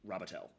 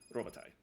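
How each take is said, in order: First: The name is pronounced the anglicized way. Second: The name is pronounced the French way. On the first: This is the changed family name used now. "but I'm Robitel" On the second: This is the original family name. "the original French Robitaille"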